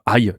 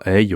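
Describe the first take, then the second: First: It is said like 'eye'. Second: It is said like 'hey'. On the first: The speaker calls it right. "donc aille, tu prononces bien la prononciation" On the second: The speaker calls it wrong. "il va dire euh, hey ou autre chose"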